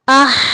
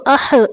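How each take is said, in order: First: The final h flows on smoothly without a bounce. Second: The final h ends with a short echoing bounce. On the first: The speaker calls it right. "इसकी आवाज़ जारी है, इसको हमने हरकत नहीं दी, कलकला नहीं किया" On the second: The speaker calls it wrong. "हमने इसको अह, इह, उह नहीं पढ़ा, क्योंकि ये कलकला हरफ नहीं है"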